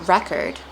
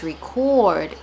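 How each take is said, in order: First: Record said REK-erd; noun pronunciation. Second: Record said ree-CORD; verb pronunciation. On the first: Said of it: "is a noun". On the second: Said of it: "so it's a verb". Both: Shown as a demonstration.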